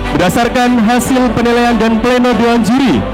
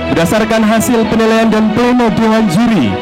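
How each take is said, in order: No difference in how they are said.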